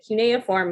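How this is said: It is said the American way.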